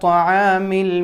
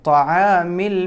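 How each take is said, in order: The two takes are said the same way.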